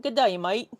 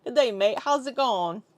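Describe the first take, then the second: First: Practising a put-on Aussie accent; Australian accent attempt. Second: Lighter put-on Aussie accent; Australian accent attempt. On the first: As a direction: try out a broad Australian accent. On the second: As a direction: ease into a mild Australian accent. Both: Shown as a demonstration. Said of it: "get into the accent".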